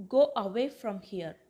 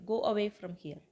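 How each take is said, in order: First: Loud opening on "Go away", words set apart; clear, emphatic teacher demo; deliberate model phrase. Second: Said in the usual way. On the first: Shown as a demonstration. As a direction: model "Go away from here" firmly for learners. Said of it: "அதை இங்கிலீஷ்ல எப்படி சொல்லலாம்". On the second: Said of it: "From here அப்படின்னா இங்கிருந்து".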